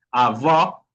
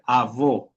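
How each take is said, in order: First: "avó" with an open, rising final o; outward open vowel. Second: "avó" with a closed, falling final o; inward closed vowel. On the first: Teacher explaining the acute accent, open final vowel on "avó". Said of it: "una fuerza de voz para afuera". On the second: Teacher showing the other accent, closed final vowel on "avó". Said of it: "otra cosa es decir avó". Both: Shown as a demonstration.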